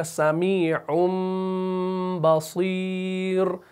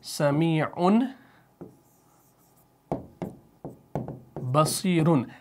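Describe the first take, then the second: First: समीउम with long nasal m, then slow बसीर; iqlab demo. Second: समीउन slow, ending on a clear n; written tanween form. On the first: Teacher joins the two words for learners, held m in समीउम. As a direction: hold the m of समीउम and stretch बसीर. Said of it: "तो ये बनेगा". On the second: Teacher shows the written form, slow n in समीउन. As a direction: say समीउन and बसीरुन apart with n endings. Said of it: "वहाँ पर है". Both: Shown as a demonstration.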